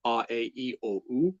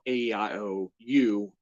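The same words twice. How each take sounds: First: "A, E, I, O, U" said ah, eh, ee, oh, oo; Japanese vowel sounds. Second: "A, E, I, O, U" said ay, ee, eye, oh, you; English vowel names. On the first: Host comparing languages, "A, E, I, O, U" as Japanese ah, eh, ee, oh, oo. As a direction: recite "A, E, I, O, U" as pure Japanese vowels. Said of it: "in Japanese it would be". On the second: Host comparing languages, "A, E, I, O, U" as English ay, ee, eye, oh, you. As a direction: recite "A, E, I, O, U" as English letter names. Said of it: "whereas in English it's". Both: Shown as a demonstration.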